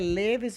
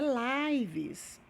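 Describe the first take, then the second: First: The vowel is short, as in 'give'. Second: The vowel is long, as in 'five'. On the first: It is the verb. The speaker calls it right. "a pronúncia dele é leves mesmo porque é verbo" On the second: It is the plural noun, not the verb. The speaker calls it wrong. "é Lives. Não, não é"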